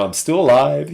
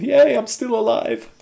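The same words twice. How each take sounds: First: Said in the usual way. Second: High-pitched little yay of celebration; mock cheer. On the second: Cheers own survival.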